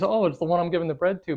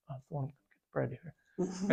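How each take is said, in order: First: Said in the usual way. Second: Very soft, secretive whisper; whispered reply. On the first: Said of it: "did he say it loud enough". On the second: Retold or imitated. Jesus confiding in John at table, whispered. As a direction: whisper it back to one listener only. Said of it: "like, whisper back".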